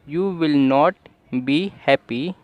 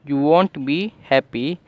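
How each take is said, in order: First: It says will not as two full words. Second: It shortens will not to the single word won't. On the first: "मैंने इसे वॉन्ट नहीं विल नॉट बोला" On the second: "आप इसे वॉन्ट भी बोल सकते हैं"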